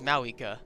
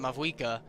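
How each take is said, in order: First: There is no v sound before the w. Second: A v sound comes before the w sound. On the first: The speaker calls it right. "but apparently it's Mawika" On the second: The speaker calls it wrong. "I have been pronouncing um, Pyro Archon's name wrong the whole time"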